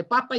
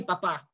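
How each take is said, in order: First: Papa stressed on the first syllable. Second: Papá stressed on the final syllable; stress on last syllable. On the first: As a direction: say papa with the beat on the opening pa. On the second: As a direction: land the beat on the last pá of papá. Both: Shown as a demonstration. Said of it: "las reglas de acentuación".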